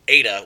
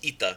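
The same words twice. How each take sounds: First: The first vowel sounds like 'ay'. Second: The first vowel sounds like 'ee'. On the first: This is the older pronunciation of the letter. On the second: This is the modern Greek pronunciation of the letter.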